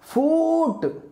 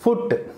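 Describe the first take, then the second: First: The vowel is a long oo, like root. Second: The vowel is a short u sound. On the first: The speaker calls it wrong. "అలా అనకూడదు" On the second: The speaker calls it right. "ఎఫ్ఓఓటి ఫుట్"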